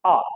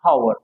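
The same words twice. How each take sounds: First: आर with a silent h, opening straight on the vowel "aa"; correct pronunciation. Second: हावर said with a sounded h at the start, like "haur"; wrong pronunciation. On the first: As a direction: say आर as "our", no h at all. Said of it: "इसको केवल ये बोलते हैं आर". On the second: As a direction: sound the h in हावर as a deliberate mistake. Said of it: "गलत है". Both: Shown as a demonstration.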